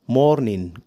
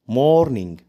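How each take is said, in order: The two takes are said the same way.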